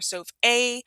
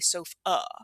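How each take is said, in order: First: The final vowel is a full, bright ah. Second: The final vowel is a soft, reduced uh. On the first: The speaker calls it wrong. "we don't say sof a" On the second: The speaker calls it right. "we say sof uh"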